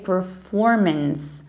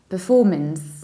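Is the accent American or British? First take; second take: American; British. First: It is said in an American accent. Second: It is said in a British accent.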